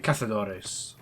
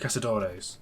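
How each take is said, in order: First: The z is sounded like a soft th. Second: The z is sounded like an English z.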